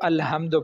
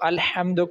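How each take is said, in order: First: The h is a light, plain breath. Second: The h is a harsh, throaty sound. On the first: The speaker calls it wrong. "अलहम्दु पढ़ते हैं" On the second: The speaker calls it right. "जैसे अल्हम्दु है"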